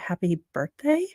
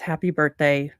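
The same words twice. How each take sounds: First: It rises at the end like a question. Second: It falls at the end like a statement.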